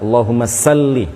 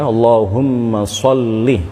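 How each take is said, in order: First: The second word starts with a plain s sound. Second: The second word starts with an emphatic s sound. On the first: The speaker calls it wrong. "jangan dibaca sa" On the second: The speaker calls it right. "Yang benar adalah sod"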